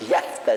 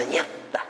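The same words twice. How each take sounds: First: Said in the usual way. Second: Yakta with the T from the throat, much softer; guttural T. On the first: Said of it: "eso es gutural ese sonido". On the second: Shown as a demonstration. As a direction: push the T of yakta from the back of the throat. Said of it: "sale la T como de la garganta".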